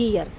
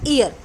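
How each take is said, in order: First: ईयर begun with a Y sound, "yee-ar"; real pronunciation. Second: ईयर begun on a bare "ee", no Y; common mispronunciation. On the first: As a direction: say ईयर with a clear Y before the long "ee". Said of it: "इसकी real pronunciation क्या होती है". (ईयर को "यीयर" बोलें, य से शुरू) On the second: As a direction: say ईयर without the opening Y glide. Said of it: "pronounce हम करते हैं ईयर". (ईयर, य के बिना, ई से शुरू) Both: Shown as a demonstration.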